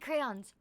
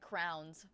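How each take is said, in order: First: The word is said with two syllables. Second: The word is said as one syllable, like crowns. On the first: The speaker calls it right. "I said crayons" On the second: The speaker calls it wrong. "always said like crowns"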